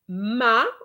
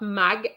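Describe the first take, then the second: First: The syllable ends on the vowel, no g. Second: The syllable ends with a hard g sound. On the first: The speaker calls it right. "it's ma" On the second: The speaker calls it wrong. "It's not mag"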